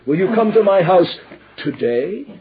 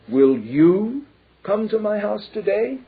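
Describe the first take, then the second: First: The stress is on "today". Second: The stress is on "you".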